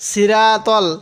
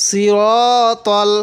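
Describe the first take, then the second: First: "সিরাতল" with thin s and open, flat raa; mistaken light raa. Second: "সিরাতল" slowly, full s and long rounded ro; correct heavy raa. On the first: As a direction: read "সিরাতল" lightly as a learner's error. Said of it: "এরকম করে পড়বেন না". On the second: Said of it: "আমি কিভাবে পড়ছি". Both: Shown as a demonstration.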